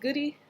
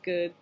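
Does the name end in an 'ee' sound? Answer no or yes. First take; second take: yes; no. First: The name ends with an added 'ee' sound. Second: The name ends on a plain 'd' sound. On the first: The speaker calls it wrong. "The silent E tends to get me a lot because people go" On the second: The speaker calls it right. "and I say"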